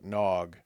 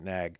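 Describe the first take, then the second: First: The vowel sounds like the one in 'log'. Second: The vowel sounds like the one in 'bag'. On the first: The speaker calls it right. "pronounced Nog" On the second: The speaker calls it wrong. "Forgive me for pronouncing it Nag"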